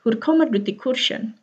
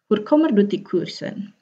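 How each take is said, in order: First: 'kursen' with a sh sound; corrected 'kursen'. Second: 'kursen' with a plain s sound; uncorrected 'kursen'. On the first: ('kursen' dengan bunyi sy) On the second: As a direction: say 'kursen' as spelled, r then s. ('kursen' dengan bunyi s biasa) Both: Shown as a demonstration. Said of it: "Ya, harusnya gitu".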